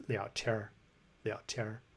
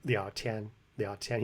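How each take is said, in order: First: 聊天儿 with 天 turned into an R-coloured "tiar"; erhua ending. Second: Said in the usual way. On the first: Shown as a demonstration. Showing viewers what he says, 聊天儿 with erhua R. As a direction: curl 天儿 into an R, dropping the N. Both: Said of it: "He says 聊天儿".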